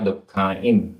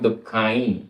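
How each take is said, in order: First: The ending closes with a full m sound. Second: The ending is a light nasalized vowel. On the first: The final vowel counts as long. "अगर बिंदी होती तो बोलते हैं नाना दुखाइम" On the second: The final vowel counts as short. "चंद्र बिंदी को तो हम दुखाई ऐसे बोल रहे हैं"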